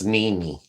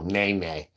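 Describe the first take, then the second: First: The vowels sound like the word knee. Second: The vowels sound like the word nay. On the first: The speaker calls it right. "Like a knee, she said" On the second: The speaker calls it wrong.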